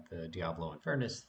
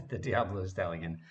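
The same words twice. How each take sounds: First: Said in the usual way. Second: "the Diablo Stallion" said through a laugh, a bit louder; laughing correction. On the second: Real, not acted. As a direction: correct yourself with an embarrassed laugh.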